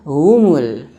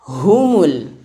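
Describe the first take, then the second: First: The opening h is slurred and dragged. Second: The opening h is articulated clearly. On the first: The speaker calls it wrong. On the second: The speaker calls it right.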